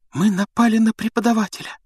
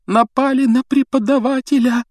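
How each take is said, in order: First: High, stunned cry of horror; horrified. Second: Higher and louder horrified cry; the horror sinks in fully; horror rising. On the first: Hermione stares at Snape, horrified. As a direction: realise what you've done. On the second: Hermione repeats it over Snape, horror rising. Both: A narrator's reading. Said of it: "В ужасе прошептала Гермиона".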